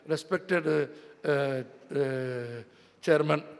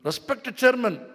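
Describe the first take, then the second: First: It is said flatly and gloomily, like a dirge. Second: It is said warmly, with respectful emphasis. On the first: The address shows no respect. The speaker calls it wrong. "மரியாதையே இல்லைடா அவர் சொன்னார்" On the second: The address conveys real respect. The speaker calls it right. "அப்படின்னா தான்டா மரியாதை"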